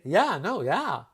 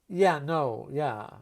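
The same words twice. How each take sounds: First: It is delivered as friendly agreement. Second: It is delivered as a firm refusal. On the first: The answer is yes. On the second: The answer is no.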